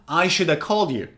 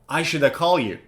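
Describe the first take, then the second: First: Should have is reduced to shoulda. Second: The same.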